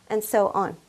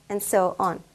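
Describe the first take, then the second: The two takes are said the same way.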